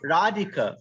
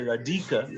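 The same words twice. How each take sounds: First: The second syllable is not stressed. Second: The second syllable is strongly stressed. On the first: The speaker calls it right. "we say radhika" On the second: The speaker calls it wrong. "we don't say radhika"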